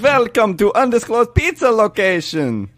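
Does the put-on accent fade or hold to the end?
holds. The vampire accent holds through the whole sentence.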